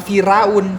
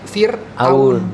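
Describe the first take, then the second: First: The vowels run together without a break. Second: A glottal catch splits the two vowels. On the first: The speaker calls it wrong. "bukan Firaun" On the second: The speaker calls it right. "tapi Fir'aun ... dipisah ... Fir apostrofi atas Aun"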